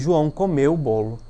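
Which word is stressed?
comeu. The emphasis falls on the word comeu. It answers what João did. "falando de maneira mais forte a palavra comeu"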